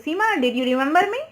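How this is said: The name runs straight into the question.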